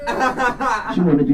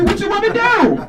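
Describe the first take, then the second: First: Slow, teasing come-on line; mock seduction, slow and drawn out. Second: Much higher, squeaky mock flirt; hammed-up flirt, pitched way up. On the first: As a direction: draw it out like a slow pickup line. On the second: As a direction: squeak it out like a teasing pickup line. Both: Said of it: "And I'm like".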